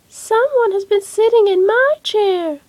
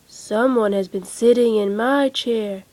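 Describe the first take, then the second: First: It is said in a little baby voice. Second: It is said in a great big voice.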